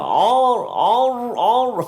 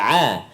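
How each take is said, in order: First: The vowel sounds heavy and dark. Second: The vowel sounds light and clear. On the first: The speaker calls it wrong. "jangan bunyi tebal dah" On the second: The speaker calls it right. "Jadi a"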